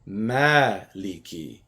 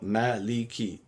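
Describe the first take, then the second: First: The first vowel is long, two beats. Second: The first vowel is short, one beat. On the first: It means owner. "if I lengthen the first vowel" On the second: It means king. "One beat each vowel"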